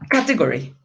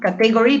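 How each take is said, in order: First: The stress falls on the first syllable. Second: The stress falls on a later syllable. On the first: The speaker calls it right. "but category ... you have to put this straight at the beginning" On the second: The speaker calls it wrong. "That is not category"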